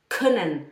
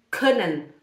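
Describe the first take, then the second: No difference in how they are said.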